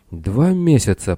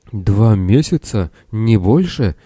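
First: Higher start, slow falling moan; mildly acted groan of dismay; groaned disbelief. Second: Astonished question. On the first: A narrator's reading. Castaway takes in the two months, groaning. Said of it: "простонал задира". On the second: Acted. Castaway learns how little time passed.

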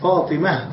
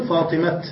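First: "فاطمة" stopped on a breathed h, "Fatimah"; pausal h ending. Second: "فاطمة" stopped on a sounded t, "Fatimat"; pausal t ending. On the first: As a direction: end "فاطمة" on h, no t. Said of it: "الوقوف عليها بالهاء". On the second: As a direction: end "فاطمة" on a hard unvowelled t. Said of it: "لا نقف بالتاء". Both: Shown as a demonstration.

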